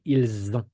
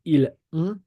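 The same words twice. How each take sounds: First: Ils ont linked with Z, il-zont; French liaison with Z. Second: Ils ont with no Z, il-ont; French without liaison; no liaison, wrong. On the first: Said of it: "We don't say ils ont". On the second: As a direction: keep ils and ont apart, no Z. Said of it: "We don't say". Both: Shown as a demonstration.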